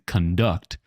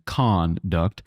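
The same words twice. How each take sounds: First: The stress is on the second syllable. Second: The stress is on the first syllable. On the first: The speaker calls it wrong. "We're not saying conduct" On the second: The speaker calls it right. "Notice that the stress is on the first syllable"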